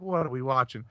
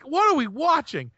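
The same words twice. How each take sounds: First: Said in the usual way. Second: Wife catching a gross scene on TV, high mock alarm; mock appalled wife. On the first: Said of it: "And she's like". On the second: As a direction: squeak it out like the horrified wife. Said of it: "she's like".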